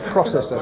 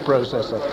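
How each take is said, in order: First: It is said with an American pronunciation. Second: It is said with a British pronunciation. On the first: The speaker calls it wrong. "because it's American" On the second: The speaker calls it right. "I've changed that"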